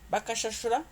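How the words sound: It is said with a question tune.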